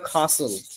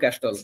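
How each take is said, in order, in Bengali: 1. স্বরধ্বনিটি দীর্ঘ 'ah'; t নীরব। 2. t-এর ধ্বনিটি মাঝখানে উচ্চারিত হয়। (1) "ব্রিটিশরা বলে কাসল" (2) "বাঙালিরা বলে ক্যাস্টল"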